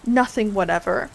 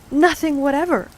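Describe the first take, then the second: First: "Nothing whatever" as a rising question; persistent question. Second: "Nothing whatever" high and loud, falling at the end; firm answer. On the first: King pressing Alice, "Nothing whatever" rising doubtfully. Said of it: "persisted the king". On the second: Alice answering the king, "Nothing whatever" high and falling. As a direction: declare "Nothing whatever" firmly, with a final fall. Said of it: "said Alice". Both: A narrator's reading.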